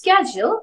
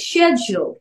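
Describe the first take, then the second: First: It is said in an American accent. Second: It is said in a British accent. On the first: "American ওয়েতে" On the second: "ব্রিটিশটা follow করতে চাই"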